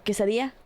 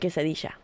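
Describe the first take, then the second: First: The 'll' is not said as a 'sh' sound. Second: The 'll' is said as a 'sh' sound. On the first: This is how most Spanish speakers say it. "you know how you say llamar or quesadilla" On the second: This is how the speaker's own Spanish says it. "we say quesadilla. We pronounce it with the sh noise"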